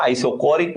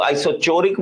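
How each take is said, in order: First: Isochoric with a hard K for the CH; "k" pronunciation. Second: Isochoric with CH as in "church"; "ch" pronunciation. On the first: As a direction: say isochoric as "eye-so-KO-rik". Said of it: "isochoric बोल देते हैं". (isochoric में "क" की आवाज़, आइसोकोरिक) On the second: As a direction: say isochoric as "eye-so-CHO-rik". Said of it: "इसको कई लोग isochoric बोल देते हैं". (isochoric में "च" की आवाज़, आइसोचोरिक) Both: Shown as a demonstration.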